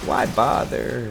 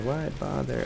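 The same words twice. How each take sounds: First: Slow and drawn out. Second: Softer, higher throwaway; softer aside. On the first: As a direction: let why bother hang slowly. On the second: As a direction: toss it off quietly. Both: Pretend.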